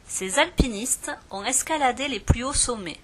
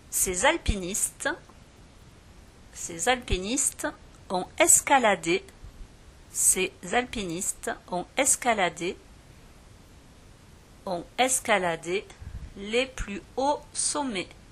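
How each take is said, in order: First: The sentence is read at a normal pace. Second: The sentence is read more slowly.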